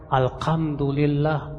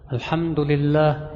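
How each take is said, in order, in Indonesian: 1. Kata itu diucapkan dengan bunyi k. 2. Kata itu diucapkan dengan bunyi h. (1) "pakai kaf"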